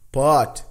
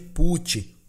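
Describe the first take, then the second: First: The vowel is short and open, like 'o'. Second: The vowel is a long, closed 'oo' sound. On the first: The speaker calls it right. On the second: The speaker calls it wrong.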